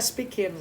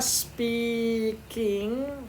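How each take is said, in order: First: The final g sound is dropped. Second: The final g sound is clearly pronounced.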